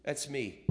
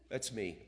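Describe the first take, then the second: First: Admitting it with a laugh; a sheepish laughing confession. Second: Said in the usual way. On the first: Real, not acted. Preacher confessing to the congregation, laughing at himself. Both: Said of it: "Sound familiar?".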